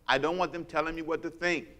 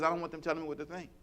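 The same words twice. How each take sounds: First: It is said slowly and deliberately. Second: It is said at a normal pace.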